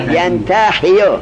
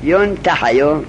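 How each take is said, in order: First: ینتحیو slowly as "yan-ta-hi-yu"; active form vowels. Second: ینتحیو as "yun-ta-ha-yu"; passive form vowels. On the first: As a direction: open ینتحیو on "yan" and put an i in "hi". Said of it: "معلومش چه بود؟". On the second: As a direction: open ینتحیو on "yun" and put an a in "ha". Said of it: "فتح دادیم شد مجهول". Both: Shown as a demonstration.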